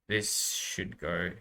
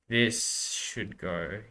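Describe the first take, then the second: The two takes are said the same way.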